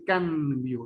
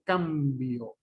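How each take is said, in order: First: CAMBIO said as "canbio", slow; tongue tip up for an n in "cambio"; con n alveolar. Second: CAMBIO with a long m, very slow; con m bilabial. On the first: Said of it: "no dice cambio". ("cambio" pronunciado "canbio") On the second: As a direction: close the lips and hold the m in "cambio". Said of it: "dice cambio". ("cambio" con m muy alargada) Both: Shown as a demonstration.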